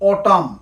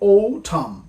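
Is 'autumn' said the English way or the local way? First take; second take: local way; English way. First: It is said the common local way. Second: It is said the standard English way. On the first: The speaker calls it wrong. "আমরা বলে থাকি" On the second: The speaker calls it right. "সঠিক উচ্চারণ"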